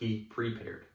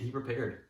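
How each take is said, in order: First: The words are spoken carefully, each sound distinct. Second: The words are spoken casually, less distinctly. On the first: The speaker calls it right. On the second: The speaker calls it wrong.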